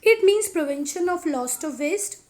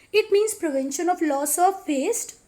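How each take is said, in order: The two takes are said the same way.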